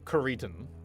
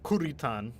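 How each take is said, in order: First: The name is pronounced with English-style sounds. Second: The name is pronounced with Japanese-style sounds. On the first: This is an anglicized pronunciation. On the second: This is how it is pronounced in the original language. "that would be how you would pronounce it in Japanese"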